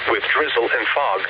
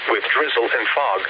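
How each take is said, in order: Both takes have the same delivery.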